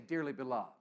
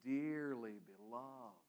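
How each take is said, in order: First: It is said flatly, without feeling. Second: It is said warmly, with deep feeling.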